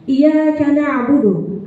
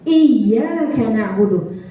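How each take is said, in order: First: The 'y' in iyyaka is single, not pressed. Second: The 'y' in iyyaka is pressed and doubled. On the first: Worship is directed to the sunlight. The speaker calls it wrong. "kalau kita nggak tekan naber pada huruf ya tasydid" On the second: Worship is directed to God. The speaker calls it right. "Ini kita harus tekan"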